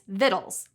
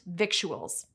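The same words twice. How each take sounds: First: The ending rhymes with little. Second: The ending does not rhyme with little. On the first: The speaker calls it right. "like little" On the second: The speaker calls it wrong. "isn't pronounced"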